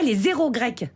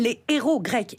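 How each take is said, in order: First: A z sound links the two words. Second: No z sound links the two words. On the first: The Greek zeros. The speaker calls it wrong. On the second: The Greek heroes. The speaker calls it right.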